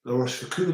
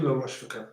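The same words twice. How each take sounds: First: Rochefoucauld ending in coo, as in C double O. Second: Rochefoucauld ending in koh, French style. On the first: Testing the coo version of Rochefoucauld on stream, ending coo. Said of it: "As in C double O". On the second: Trying the French koh version for viewers, ending koh. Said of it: "Is it La Rochefoucauld or La Rochefoucauld?". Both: Shown as a demonstration.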